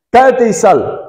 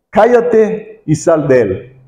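First: Commanding rebuke. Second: Stern rebuke. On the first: Retold or imitated. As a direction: order the spirit out with force. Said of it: "Jesús dice". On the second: A narrator's reading. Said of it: "le reprendió diciendo".

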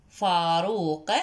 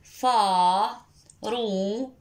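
First: Said in the usual way. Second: Very slow فا-رو- stretched syllable by syllable; teacher sounding out slowly; drawn-out syllables. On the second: Shown as a demonstration. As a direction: stretch each syllable of فا-رو- long. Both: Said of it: "كلمة فاروق".

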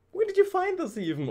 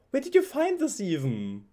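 First: Excited squeal. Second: Said in the usual way. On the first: Real, not acted. Excited unboxing repeat.

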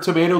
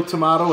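First: Tomato with a long ay, to-MAY-to; American tomato. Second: Tomato with a broad ah, to-MAH-to; British tomato. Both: Shown as a demonstration. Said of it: "I've heard tomato, tomato".

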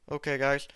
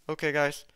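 Both takes have the same delivery.

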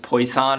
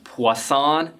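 First: Poisson said English-style as POY-sahn; anglicized pronunciation. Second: Poisson said French-style as pwah-SOHN, slowly; French pronunciation. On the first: Lecturer showing viewers the common misreading, Poisson as POY-sahn. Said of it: "not pronounced Poisson". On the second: Lecturer giving bonus content on the French name, Poisson as pwah-SOHN. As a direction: say Poisson slowly with a "pwa" opening. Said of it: "it's pronounced Poisson". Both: Shown as a demonstration.

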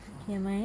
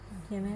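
Both takes have the same delivery.

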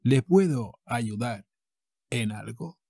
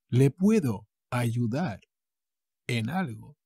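The two takes are said the same way.

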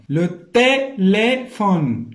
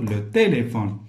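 First: "téléphone" very slow, higher and louder, each é held; syllable-by-syllable model. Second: Said in the usual way. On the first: Shown as a demonstration. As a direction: hammer out "téléphone" in long separate syllables. Teacher models each accented syllable. ("téléphone" مقطّعة بشوية وبصوت عالي)

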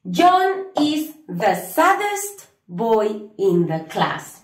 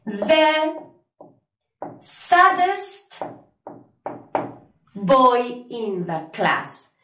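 First: Slow, careful full English sentence; teacher giving the full answer for students. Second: Teacher modelling the answer for students; slow model sentence. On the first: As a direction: say the whole answer slowly. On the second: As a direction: read it out slowly, lifting saddest. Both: Shown as a demonstration. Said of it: "vamos a decir".

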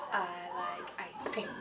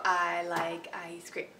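First: "I like ice cream" slow and soft in even beats; rhythm example. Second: "I like ice cream" said slowly in even beats; rhythm example. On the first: Teacher repeating the whole note example softly. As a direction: stretch "I like ice cream" evenly, quieter. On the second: Teacher modeling a whole note, slow. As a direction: hold each word of "I like ice cream" for a beat. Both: Shown as a demonstration. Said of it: "then you go".

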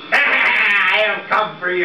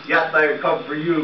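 First: Slow spooky ghost moan. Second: Said in the usual way. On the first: Acted. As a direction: drag it out like a ghost. Ghost threatens Punch.

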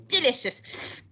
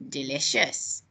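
First: Higher, savouring DELICIOUS; relishing. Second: Relishing. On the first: Acted. Grandma relishes eating slugs. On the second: A narrator's reading. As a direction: drop "Delicious" low, savouring it. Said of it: "she said again".

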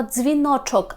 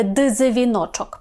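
First: Дзвіночок starting with a single fused dz; дзвіночок with dz said as one sound. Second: Дзвіночок split into "dy-ze-vinochok", slowly; slow дзвіночок with a vowel put between д and з; wrongly split дз. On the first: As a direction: run д and з together as one consonant in дзвіночок. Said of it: "ми теж читаємо як один звук". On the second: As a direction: pull д and з apart into separate syllables in дзвіночок. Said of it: "а не". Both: Shown as a demonstration.

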